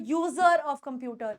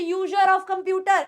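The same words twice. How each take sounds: First: "user" as slow "yoo-zer", r sounded; correct z sound. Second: "user" mispronounced as "yoo-jer"; wrong j sound. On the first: Teacher corrects user for students, clear z. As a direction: buzz the z in user, lower and slow. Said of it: "वो ज के form में आ रही है". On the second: Teacher shows students the wrong user, mispronounced. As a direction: put a j in the middle of user. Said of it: "तो ये यूजर नहीं है". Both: Shown as a demonstration.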